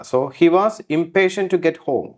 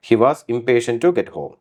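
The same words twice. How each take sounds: First: He was impatient to get home, drawn out word by word; slow example read. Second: He was impatient to get home, slow with to stressed; slow repeat. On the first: Teacher reads the example sentence slowly for students. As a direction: dictate it slowly to the class. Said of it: "teacher reads example slowly". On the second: Teacher repeats the sentence slowly for students. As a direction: read it again slowly. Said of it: "repeat slowly". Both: Shown as a demonstration.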